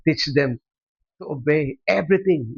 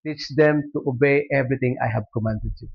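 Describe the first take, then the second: First: Preacher repeating the verse, pressing "them" and "everything"; stress on THEM and EVERYTHING. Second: Said in the usual way. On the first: Shown as a demonstration. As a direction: hammer home "them" and "everything".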